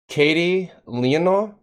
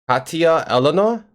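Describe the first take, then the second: First: The first name ends in an 'ee' sound. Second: The first name ends in a 'yuh' sound. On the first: The speaker calls it wrong. "I'm wrong" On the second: The speaker calls it right. "I did something right!"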